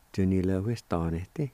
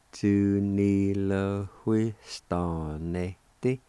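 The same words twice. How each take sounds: First: "Tu ni le hui sta ne te" flowing as one word; joined-up, normal pace. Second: "Tu ni le hui sta ne te" at half speed; slow sounding-out. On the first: Teacher giving the whole word for jobs, joined-up normal pace. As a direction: run Tu ni le hui sta ne te together at talking speed. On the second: Teacher showing how jobs is pronounced, slow sounding-out. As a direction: stretch each syllable of Tu ni le hui sta ne te. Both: Shown as a demonstration. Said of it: "like this".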